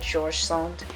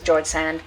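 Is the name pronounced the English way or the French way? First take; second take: French; English. First: The name is pronounced the French way. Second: The name is pronounced the English way. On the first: The speaker calls it right. "it's French, so you're supposed to pronounce it" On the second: The speaker calls it wrong. "I know it says George Sand"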